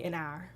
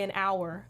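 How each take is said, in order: First: An hour drawn into Southern "ahr". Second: Said in the usual way. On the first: Shown as a demonstration. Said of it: "I'll say". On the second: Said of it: "if I say, I won't say".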